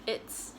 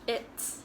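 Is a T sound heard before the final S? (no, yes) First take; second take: yes; yes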